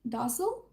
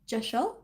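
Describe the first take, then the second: First: The word begins with a D sound. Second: The word begins with a J sound. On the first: This is how the speaker has always said it. "I've always pronounced it as um" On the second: This is the pronunciation the book gives. "it's pronounced like J E H S H E L"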